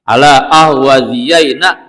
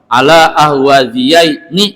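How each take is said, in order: First: The final nun is voiced with an 'a' vowel. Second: The final nun is voiced with an 'i' vowel. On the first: This is a rare form found in poetry. "dalam syair ini dibaca fathah" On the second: This is the common everyday form. "Kalau baca kebanyakan nunnya kasroh"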